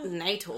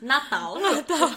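First: The word is said the English way. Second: The word is said the Portuguese way. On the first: The speaker calls it wrong. "it's not natal" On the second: The speaker calls it right. "it's natal, which goes with the theme"

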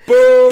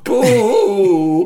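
First: The boo is short. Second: The boo is drawn out long.

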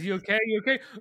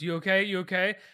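First: It is said in a mocking, taunting tone. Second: It is said in a soothing, calming tone.

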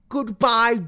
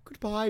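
First: It is said in an imitated character voice. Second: It is said in the speaker's ordinary voice.

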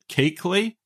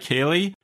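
First: A k sound comes before the l. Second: No k sound comes before the l. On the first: The speaker calls it right. "he pronounced it Keekly" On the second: The speaker calls it wrong. "I'm going to say Keely, with the understanding that I know that is wrong"

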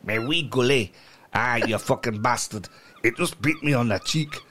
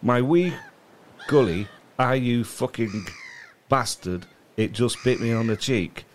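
First: It is said in a put-on Scottish accent. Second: It is read in his ordinary accent.

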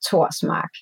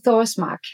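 First: The name begins with a plain T sound. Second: The name begins with a TH sound. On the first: This is the Danish way of saying the name. "Pronounced in Danish, ... you don't do the th because it's just the T" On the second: This is the English way of saying the name. "In English, I say Thorsmark"

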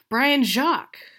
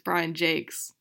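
First: The surname is said like French 'Jacques'. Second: The surname is said like English 'Jakes'. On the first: The speaker calls it wrong. "I was like, oh yeah" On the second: The speaker calls it right. "No, it's Brian Jakes"

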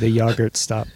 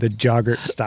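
First: The first word begins with a Y sound. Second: The first word begins with a hard J sound. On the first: The speaker calls it right. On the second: The speaker calls it wrong.

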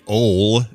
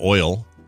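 First: The vowel is a plain 'o' sound. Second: The vowel glides from 'o' to 'ee'. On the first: This is the relative's regional way of saying it. "she used to say "ol" instead of "oil."" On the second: This is the standard way of saying it. "instead of "oil.""

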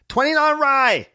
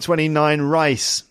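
First: The last word ends without an s sound. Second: The last word ends with an s sound. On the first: "it sounds like rye" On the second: "Meaning 29 rice"

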